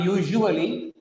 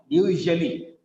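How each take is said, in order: First: "usually" with an extra oo in the middle; mispronounced "usually". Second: "usually" in three syllables, middle vowel reduced; corrected "usually". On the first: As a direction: say "usually" as YOO-zhoo-uh-lee. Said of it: "It's not usually". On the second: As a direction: say "usually" as YOO-zhuh-lee. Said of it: "No, usually". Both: Shown as a demonstration.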